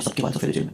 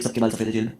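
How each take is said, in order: First: Whispered, much lower, under the breath; stunned whisper. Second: Said in the usual way. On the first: Retold or imitated. Looking round the jail at everyone's grey hair, stunned whisper. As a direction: breathe it out as the truth sinks in. Looks round, repeats in shock.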